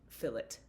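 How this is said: The word is said the English way. "fillet in England"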